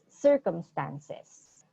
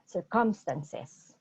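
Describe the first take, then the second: First: The stress falls on the first syllable. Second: The stress falls on a later syllable. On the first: The speaker calls it right. "It's circumstances" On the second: The speaker calls it wrong. "not circumstances"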